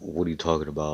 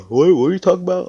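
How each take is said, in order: First: Said in the usual way. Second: High, loud words swallowed by a yawn; talking through a yawn. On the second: Acted. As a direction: speak while still yawning hard. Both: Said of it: "I was yawning".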